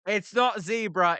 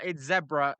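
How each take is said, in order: First: "zebra" as ZEE-bruh; "zebra" with the e as in see; American zebra rejected. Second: "zebra" as ZEB-ruh; "zebra" with the e as in bed; British zebra. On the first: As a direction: say "zebra" with a long ee, ZEE-bra. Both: Shown as a demonstration.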